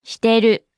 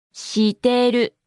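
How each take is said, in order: First: Said in the usual way. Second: Slowly, each syllable drawn out; slow model. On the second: Shown as a demonstration. Teacher repeats a new word for learners, slowly and deliberately. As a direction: stretch it out for learners.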